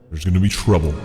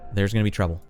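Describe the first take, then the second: First: It is said in a stern dad voice. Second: It is said in his normal voice.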